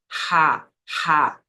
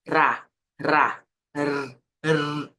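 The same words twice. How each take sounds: First: Ra said as a breathy ha; Portuguese R. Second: Ra with a rolled tongue-tip r; Spanish trilled R. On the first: Teacher contrasting Portuguese with Spanish, throaty R. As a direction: say ra from the throat, no trill. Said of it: "Veja como é em português a pronúncia". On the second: Teacher contrasting Spanish with Portuguese, trilled R. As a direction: roll the r in ra, then alone. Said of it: "Em espanhol é". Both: Shown as a demonstration.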